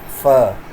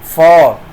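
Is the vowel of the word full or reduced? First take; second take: reduced; full. First: The word has a weak, reduced vowel. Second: The word has a full, strong vowel.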